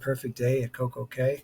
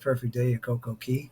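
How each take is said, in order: First: The last word rhymes with 'day', sounding like 'kay'. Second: The last word sounds like 'key', not rhyming. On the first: "theirs would kind of rhyme" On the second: "It wouldn't rhyme if it was"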